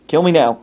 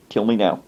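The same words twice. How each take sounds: First: Comic plea, firmly voiced; exasperated, pointed delivery; emphatic mock despair. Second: Low, muted comic despair; lowered, hopeless aside; mock despair. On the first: Despairing aside repeated with more force. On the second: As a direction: mutter it in defeated resignation.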